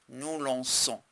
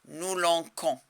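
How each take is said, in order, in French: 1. La consonne du milieu est un son s. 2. La consonne du milieu est un son k. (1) "alors c'est là" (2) "si je ne mets pas la cédille, je vais lire"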